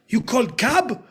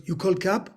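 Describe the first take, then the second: First: Cab hit high and loud; louder, punchier take. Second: Said in the usual way. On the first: Retold or imitated. Actor trying to stand out at the audition, louder line. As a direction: push it out like a keen actor. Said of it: "I thought I'd make it a bit more". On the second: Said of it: "How can I say this line in a better way?".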